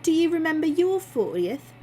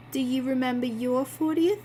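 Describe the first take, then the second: First: Put-on Christine's proper accent, higher and louder; corrected accent. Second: Put-on slipped into the wrong character accent; a misplaced accent for Christine. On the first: Christine teasing Bill about his fortieth, corrected accent. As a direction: redo the line in her right accent. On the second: Christine asks Bill about his fortieth, wrong accent. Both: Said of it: "Oh, wait, wrong accent".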